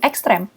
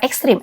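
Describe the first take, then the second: First: The last vowel is pronounced as 'e'. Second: The last vowel is pronounced as 'i'. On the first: The speaker calls it right. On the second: The speaker calls it wrong.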